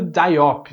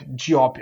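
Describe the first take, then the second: First: "Diop" said as dye-OP; first guess at "Diop", opening like English "die"; "Diop" with an "eye" sound in the first syllable; guessed pronunciation. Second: "Diop" said lower as jee-OP; second guess at "Diop", opening with "jee"; "Diop" with an "ee" sound, pitched down; alternative pronunciation. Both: Shown as a demonstration. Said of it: "não lembro como é que pronuncia".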